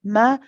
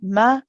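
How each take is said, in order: Both takes have the same delivery.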